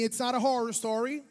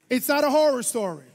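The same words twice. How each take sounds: First: It is said with ordinary, moderate energy. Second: It is said louder and with more energy. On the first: "Say it with me" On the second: "let's now say like you had breakfast"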